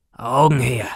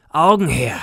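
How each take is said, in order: First: "Augen her" boomed out loud, falling at the end; a dull, booming demand for the eyes; booming call. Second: "Augen her" even louder and higher, a roaring repeat; a harder second demand for the eyes; louder booming call. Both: A narrator's reading. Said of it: "mit dumpfer, dröhnender Stimme".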